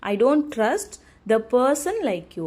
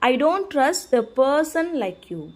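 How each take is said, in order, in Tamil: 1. person என்ற வார்த்தையில்தான் முக்கிய அழுத்தம் உள்ளது. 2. person என்ற வார்த்தையில்தான் முக்கிய அழுத்தம் உள்ளது.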